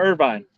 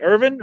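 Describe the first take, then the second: First: IRVINE rhyming its end with "vine"; long-i pronunciation. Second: IRVIN with a short second syllable; short-i pronunciation. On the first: Asking which one is right, long-i Irvine. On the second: Asking which one is right, short-ending Irvin. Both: Shown as a demonstration. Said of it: "do they pronounce that".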